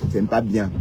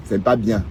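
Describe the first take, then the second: No difference in how they are said.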